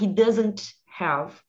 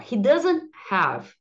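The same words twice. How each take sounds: First: The t in doesn't is clearly pronounced. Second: The t in doesn't is dropped. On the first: The speaker calls it wrong. "eu não vou falar" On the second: The speaker calls it right. "não falarem o T. Então, ó"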